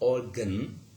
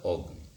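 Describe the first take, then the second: First: The second syllable has a full vowel, like gun. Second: The second syllable is reduced to a syllabic n. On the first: The speaker calls it wrong. "Not organ, gun" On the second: The speaker calls it right. "but rather organ"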